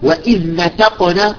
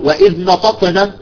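First: The t is a plain, light t. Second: The t is a heavy emphatic t. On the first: The speaker calls it right. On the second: The speaker calls it wrong.

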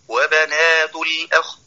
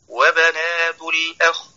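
No difference in how they are said.

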